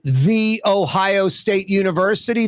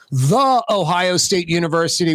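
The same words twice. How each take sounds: First: The word 'the' is pronounced 'thee'. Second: The word 'the' is pronounced 'thuh'. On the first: The speaker calls it right. "that is grammatically correct" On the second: The speaker calls it wrong. "would be wrong. You're mispronouncing the"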